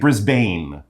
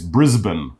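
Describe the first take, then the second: First: The second syllable has a full long A vowel. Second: The second syllable has a short reduced vowel. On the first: The speaker calls it wrong. "You wouldn't say Brisbane. So it's not like a long A" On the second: The speaker calls it right. "It's Brisbane"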